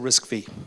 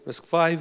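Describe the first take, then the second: First: The final part is pronounced as vee. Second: The final part is pronounced as five. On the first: The speaker calls it wrong. "as opposed to RISC-V" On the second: The speaker calls it right. "V is the Roman numeral for 5, and we just say RISC-V"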